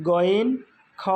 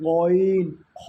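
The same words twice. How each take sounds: First: "গইন, খ" with an ordinary hard g and kh; wrong shallow version. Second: Loud, long "গইন, খ" rasped from the throat; from deep inside. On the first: Teacher shows students what to avoid, shallow "গইন, খ". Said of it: "এটা না". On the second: Teacher corrects the shallow version, throaty and drawn out. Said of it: "ভিতর থেকে". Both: Shown as a demonstration.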